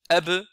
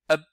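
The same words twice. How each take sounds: First: The final consonant ends with a clear bounce. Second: The final consonant is held silent, barely heard. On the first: The speaker calls it right. "alors qu'il faut faire ab" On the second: The speaker calls it wrong. "donc ça c'est l'erreur bien sûr"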